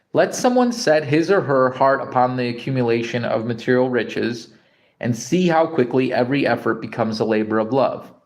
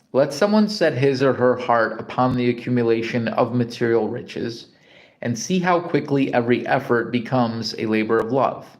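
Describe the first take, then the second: No difference in how they are said.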